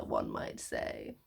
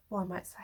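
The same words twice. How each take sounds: First: One might say, dropped low and slow; a wry, deep, slow aside; dry low aside. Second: One might say, whispered; whispered aside. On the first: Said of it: "repeated tag line". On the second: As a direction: breathe it out nervously under your breath. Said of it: "on edge". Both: Shown as a demonstration.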